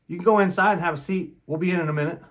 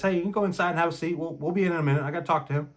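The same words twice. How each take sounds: First: A touch louder, firm but civil; firm polite dismissal. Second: Quick, firm but civil; demonstrating the tone used on the wife, firm; firm polite dismissal. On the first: Retold or imitated. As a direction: send her off politely but firmly. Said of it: "just like that, in that tone of voice". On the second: Shown as a demonstration. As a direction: repeat it calmly to show the tone. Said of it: "in that tone of voice".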